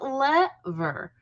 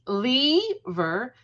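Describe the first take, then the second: First: The first vowel is a short E sound. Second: The first vowel is a long E sound. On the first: "short E" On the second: "Long E"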